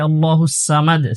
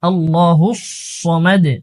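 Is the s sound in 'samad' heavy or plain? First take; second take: plain; heavy. First: Samad begins with a plain, light s sound. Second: Samad begins with a heavy, emphatic s sound. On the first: The speaker calls it wrong. "সিন উচ্চারণ করে থাকে, সিন হবে না" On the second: The speaker calls it right. "এখানে সদ উচ্চারণ করব"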